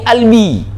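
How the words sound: The word starts with a glottal stop.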